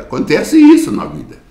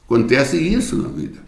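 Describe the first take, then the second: First: High, ringing exclamation; a preacher's high exclamation; exclaimed. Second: Softer, settled repeat; a softer second telling; quiet echo. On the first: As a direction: cry the point out high to the congregation. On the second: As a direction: let the point sink in gently. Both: Acted. Preacher repeats his point.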